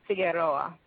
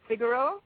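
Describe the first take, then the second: First: Figueroa with the final "o-a" sounded out; Figueroa said the Spanish way. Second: Figueroa shortened, ending on a long "oh"; Figueroa said the Jamaican way. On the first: Guest explaining her name, Figueroa pronounced the Spanish way. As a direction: give Figueroa its full Spanish pronunciation. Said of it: "in the Spanish-speaking world, it's pronounced". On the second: Guest explaining her name, Figueroa pronounced the Jamaican way. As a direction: give Figueroa its Jamaican pronunciation. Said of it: "in Jamaica, it's pronounced". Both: Shown as a demonstration.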